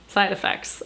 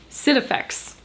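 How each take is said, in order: First: The first word has a long 'eye' vowel. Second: The first word has a short 'i' vowel. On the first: "Side Effects just sounds so much cooler" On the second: "is it Sid Effects? Maybe it is"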